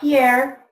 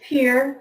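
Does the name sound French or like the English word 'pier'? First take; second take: French; like pier. First: The name is said the French way. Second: The name sounds like the English word pier. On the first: The speaker calls it wrong. "it's not Pierre ... we don't pronounce it the French way" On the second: The speaker calls it right. "It's Pierre. We pronounce it Pierre like a fishing pier"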